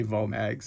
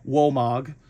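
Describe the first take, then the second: First: Vomag said with an English V sound; English pronunciation. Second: Womag said with a W sound, the German way; German pronunciation. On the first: Telling viewers the easier English name, Vomag with a V. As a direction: say Vomag plainly the English way, V as in van. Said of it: "probably better with my terrible German accent just to say". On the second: Telling model kit viewers the German name, Womag with a W. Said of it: "it'll be pronounced". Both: Shown as a demonstration.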